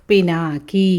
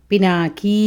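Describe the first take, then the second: The two takes are said the same way.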